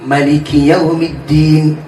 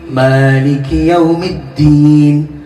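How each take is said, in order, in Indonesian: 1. Vokal pertama pada Maliki dibaca pendek. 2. Vokal pertama pada Maliki dibaca panjang. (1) "Maliki dibaca pendek" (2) "Rakaat pertama kok diwaca dawa"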